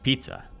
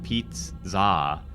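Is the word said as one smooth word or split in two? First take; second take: one word; split. First: The word is said smoothly as one unit. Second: The word is broken into two separate parts. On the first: The speaker calls it right. "It's one word" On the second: The speaker calls it wrong. "It's not Pete like a guy's name Pete. It's not like pizza"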